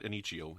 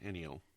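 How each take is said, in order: First: An extra 'ch' sound is added mid-word. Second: No extra 'ch' sound is added mid-word. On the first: The speaker calls it wrong. "not Enichio" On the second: The speaker calls it right.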